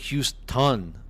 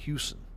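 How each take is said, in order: First: The t sound in the middle is pronounced. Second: The t sound in the middle is dropped. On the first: "I don't say Houston" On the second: "I drop T's whenever I say certain like Houston"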